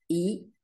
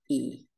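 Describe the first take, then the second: First: The vowel is held briefly. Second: The vowel is held about twice as long.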